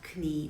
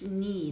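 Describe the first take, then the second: First: The word starts with a k sound. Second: The word starts with an n sound. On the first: The speaker calls it wrong. "not knie" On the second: The speaker calls it right. "it's knee"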